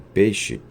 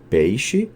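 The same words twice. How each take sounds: First: The first vowel is a single plain e. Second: The first vowel glides from e to i. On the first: "a vogal e" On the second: "o ditongo ei"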